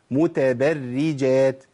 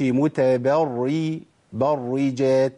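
First: "متبرجات" very slow, thin doubled ra, like "berri"; correct light ra. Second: "متبري-، برجات" slow, thick dark first ra, like "barri"; wrong heavy ra. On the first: Teacher gives another example, slow thin ra. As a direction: keep "برج" in "متبرجات" light and held. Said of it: "نجيب تاني مثال". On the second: Teacher shows what is not allowed, heavy ra. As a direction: darken the ra in "برجات" as a mistake. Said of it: "ما أقولش". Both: Shown as a demonstration.

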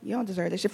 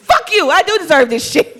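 First: Doubting inner voice. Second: Loud high laughing retort; high loud defiant comeback with a laugh; defiant shout. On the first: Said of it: "now it's like". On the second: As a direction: fire back at the doubt. Defiant reply to inner doubt. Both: Retold or imitated.

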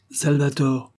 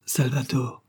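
First: Higher, severe summons of his name; stern voice. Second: Softer, sorrowful calling of his name; sad. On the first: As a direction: call him out like a stern master. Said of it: "d'une voix sévère". (appel sévère, plus aigu) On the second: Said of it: "répondit tristement Titania". (appel triste et plus doux) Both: A narrator's reading.

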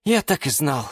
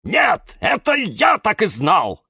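First: Restrained, let-down voice; resigned sigh. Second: High, loud angry bark. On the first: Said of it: "вздохнул Юра". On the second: Cactus snaps back at Юра, high angry bark. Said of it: "рявкнул кактус Кирилл". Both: A narrator's reading.

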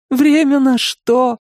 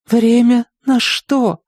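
First: Through tears. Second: Slow, high, broken plea; queen asking her husband through tears; tearful question. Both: A narrator's reading. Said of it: "сквозь слёзы посмотрела".

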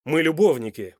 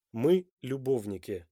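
First: МЫ ЛЮБОВНИКИ loud and insistent; demanding. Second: Slow, measured repeat at normal volume; slow echo. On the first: Man insists on his right to know, demanding. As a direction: assert it forcefully, as a claim on her. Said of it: "требовательно спросил Данте". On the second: Woman takes in her lover's wounding words, slowly echoing. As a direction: let the words sink in slowly. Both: A narrator's reading.

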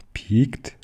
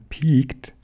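First: "Piekt" higher with a rising end; questioning call. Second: "Piekt" high with a falling end; dismissive call. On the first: Little bear questioning the fox's warning, "Piekt" called with a rise. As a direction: throw "Piekt" back as a question. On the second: Little bear rebuffing the fox, "Piekt" high and falling. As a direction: throw "Piekt" out high, then drop it. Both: A narrator's reading. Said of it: "rief der kleine Bär".

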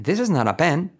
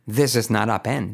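First: "This is not a pen" run together, higher; linked together. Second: Slower, word by word; careful separated words. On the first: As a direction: blend "This is not a pen" into one flow. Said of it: "Todo junto". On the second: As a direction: say each word of "This is not a pen" apart. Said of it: "Claro que puedes decir". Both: Shown as a demonstration.

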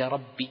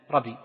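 First: "ربي" with a held, doubled b; correct shadda. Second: "ربي" with one light, short b; dropped shadda. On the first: Teacher corrects the reading for students, "ربي" with its shadda doubled. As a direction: close on the first b of "ربي", then release the second. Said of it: "لأنها حرفان، حرف ساكن وحرف متحرك". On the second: Teacher shows students the invalid reading, "ربي" without its shadda. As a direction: say "ربي" wrongly, the b not doubled. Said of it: "لأنك تركت ماذا؟ شدة". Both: Shown as a demonstration.

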